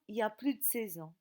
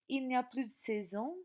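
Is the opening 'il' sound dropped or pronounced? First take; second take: dropped; pronounced. First: The opening 'il' sound is left out. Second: The opening 'il' sound is pronounced.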